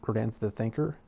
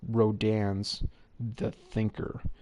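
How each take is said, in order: First: It is said quickly, without careful enunciation. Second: It is said slowly, with careful enunciation. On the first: The speaker calls it wrong. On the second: The speaker calls it right.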